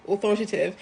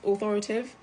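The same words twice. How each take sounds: First: "authoritative" in full, every syllable, falling at the end; corrected attempt. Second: "authoritative" with a questioning rise, one syllable swallowed; uncertain attempt. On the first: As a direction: settle on "au-thor-i-ta-tive" as a statement. Settles on the full word. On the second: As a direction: try "authoritative" as "au-thor-a-tive?", unsure. Trying out a tricky word. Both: Shown as a demonstration.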